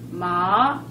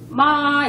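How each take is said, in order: First: The pitch rises from middle to high. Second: The pitch stays high and level. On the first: It means hemp. "마 이러면은 그 우리 마 있잖아요. 풀마" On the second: It means mother. "일성이 이제 예를 들어서 마 이러면은 이제 엄마가 되는 거고"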